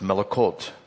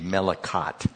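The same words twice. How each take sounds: First: The word is said attempting a Hebrew pronunciation. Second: The word is said with a plain English pronunciation. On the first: "but it's Melikot" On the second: "If you pronounce it in English"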